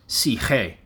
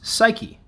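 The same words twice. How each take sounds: First: It is said with the original Greek pronunciation. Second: It is said with a modern English pronunciation. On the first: The speaker calls it right. "It's pronounced psyche" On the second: The speaker calls it wrong. "That's not actually how it's pronounced, though. That's modern English"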